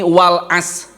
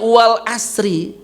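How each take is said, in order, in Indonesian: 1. Bunyi r di akhir dihilangkan. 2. Bunyi r dipertahankan dengan vokal setelahnya. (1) "roknya hilang" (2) "karena takut roknya hilang jadi dibacanya wal asri"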